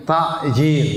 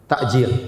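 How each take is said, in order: First: "Takjil" with a throaty ain sound; "Takjil" pronounced with ain, the word meaning hasten. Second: "Takjil" with a glottal stop, hamzah sound; "Takjil" pronounced with hamzah, the word meaning delay. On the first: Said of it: "Padahal artinya pakai ain". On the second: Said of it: "pakai hamzah". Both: Shown as a demonstration.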